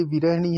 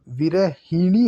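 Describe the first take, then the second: First: विरहिणी as "vi-rah-nee"; no i after h in विरहिणी; wrong pronunciation. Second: विरहिणी with clear "hi"; correct pronunciation. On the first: Teacher showing the error, विरहिणी as "virahnee". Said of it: "ये अशुद्ध है". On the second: Teacher correcting the word, विरहिणी with hi. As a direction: say विरहिणी as "vi-ra-hi-nee". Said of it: "ही पर भी मात्रा". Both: Shown as a demonstration.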